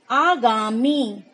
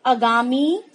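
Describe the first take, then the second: First: आगामी slowly, with a long open "aa" at the start; correct form, long aa. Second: आगामी with a short first "a", said quickly; wrong form, short a. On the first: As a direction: stretch the first vowel of आगामी, teaching it. (आगामी का सही उच्चारण, लंबा आ धीरे से) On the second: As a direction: say आगामी wrongly, as "agami" with a clipped first vowel. (आगामी का गलत उच्चारण, पहला स्वर छोटा) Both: Shown as a demonstration. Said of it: "आ की मात्रा होनी चाहिए".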